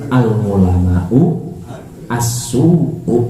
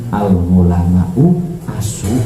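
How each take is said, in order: First: The last word is said fully as as-su'u. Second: The last word is clipped to a short asu. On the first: It means the evil scholars. The speaker calls it right. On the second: It sounds like calling the scholars dogs. The speaker calls it wrong.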